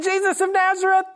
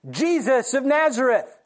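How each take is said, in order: First: Braced soldiers' shout. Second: Said in the usual way. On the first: Acted. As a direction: shout it back, bracing yourselves. Soldiers braced, answer again.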